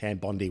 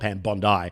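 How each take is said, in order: First: Bondi is said unlike the Australian beach name. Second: Bondi is said like the Australian beach name. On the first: This is the name's proper pronunciation. "technically it is Pam Bondi" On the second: It jokingly links her to the Australian beach. "We call her Pam Bondi, ... because of the Australian Association"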